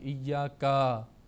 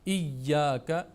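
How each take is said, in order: First: The final vowel is drawn out long. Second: The final vowel is short and quick. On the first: The speaker calls it wrong. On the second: The speaker calls it right.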